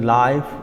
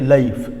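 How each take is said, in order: First: The vowel has a standard English diphthong. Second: The vowel has a Scottish English diphthong. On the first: "instead of saying life" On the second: "what happens in Scottish English"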